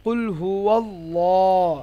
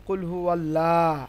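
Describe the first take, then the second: First: কুল হুয়াল্লাহ slow, with thick dark L and long "law"; heavy Lam pronunciation. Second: কুল হুয়াল্লাহ with a light L and open "laa"; common thin pronunciation. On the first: Teacher models Surah Ikhlas, কুল হুয়াল্লাহ with heavy stretched Lam. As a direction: draw out কুল হুয়াল্লাহ to a full rounded "wallooh". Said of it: "উচ্চারণটা কি হবে". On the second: Teacher shows how we say it, কুল হুয়াল্লাহ with thin Lam. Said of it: "আমরা বলি". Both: Shown as a demonstration.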